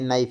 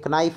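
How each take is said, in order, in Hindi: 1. n से पहले कोई k ध्वनि नहीं बोली जाती। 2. n से पहले k ध्वनि बोली जाती है। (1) "ये नाइफ है, के साइलेंट है" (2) "ये कनाइफ नहीं है"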